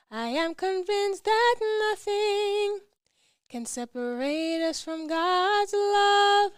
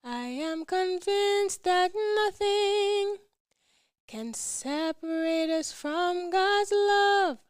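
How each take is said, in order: Both takes have the same delivery.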